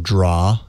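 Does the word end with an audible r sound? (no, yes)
no. The word ends with no r sound.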